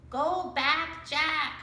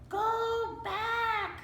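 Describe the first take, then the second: First: "Go back, Jack" in a human voice, higher and louder; "Go back, Jack" said like a person, not a bird. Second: Much higher sing-song parrot squawk; "Go back" screeched like a parrot. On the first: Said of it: "She sounded like a person". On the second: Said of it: "squawked Polly". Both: A narrator's reading.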